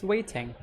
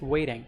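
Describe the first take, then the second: First: "waiting" with the T fully sounded; clear T. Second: "waiting" said like "wading". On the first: Co-teacher contrasting with American speech, "waiting" with clear T. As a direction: say "waiting" with a real T, not D. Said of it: "I think it's more British". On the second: Co-teacher giving the American form, "waiting" like "wading". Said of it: "You replace the T with D". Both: Shown as a demonstration.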